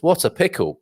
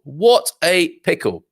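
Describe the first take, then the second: First: Said in the usual way. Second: Slow, higher, savoured exclamation; a slow, hammed-up sigh of dismay; drawn-out mock dismay.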